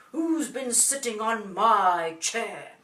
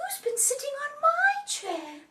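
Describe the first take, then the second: First: Big, loud, slow father bear; deep Daddy voice. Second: Very high, loud Mummy bear; mummy's voice. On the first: Daddy bear finds his chair disturbed, deep booming voice. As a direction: boom it slowly in a deep Daddy voice. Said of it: "says in his deep voice again". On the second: Mummy bear finds her chair disturbed, high mummy voice. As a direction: exclaim it high as a mother bear. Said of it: "says in her mummy's voice". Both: A narrator's reading.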